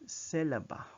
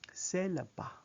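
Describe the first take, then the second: The two takes are said the same way.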